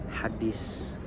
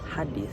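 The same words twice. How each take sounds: First: The middle consonant is a plain s. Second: The middle consonant is a th-like sound. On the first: This is the simplified Indonesian pronunciation. "orang Indonesia merubahnya dengan huruf s" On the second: This is the original Arabic pronunciation.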